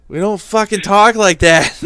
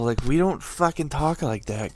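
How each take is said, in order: First: Loud, high, slowed outburst; indignant shout. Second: Said in the usual way. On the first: Real, not acted. Boston local fed up with fake accents, shouting. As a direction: yell it in mock outrage. Indignant repeat, much louder. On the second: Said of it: "Boston accent complaint".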